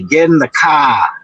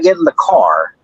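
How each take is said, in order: First: It is said in a Boston accent. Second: It is said in a general American accent. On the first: The speaker calls it right. "the Boston accent" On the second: The speaker calls it wrong. "Not get in the car"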